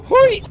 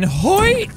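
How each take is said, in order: First: Hoi; yelped high and loud. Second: Hoi. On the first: Hoi yelped high while grabbing the cube. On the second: Dropping cube, mock grunt. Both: Pretend.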